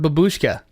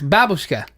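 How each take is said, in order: First: The stress is not on the first syllable. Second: The stress is on the first syllable. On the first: This is how Americans say it. The speaker calls it wrong. "all Americans pronounce it that way" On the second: This is how Russians say it. The speaker calls it right. "really strong on the first syllable"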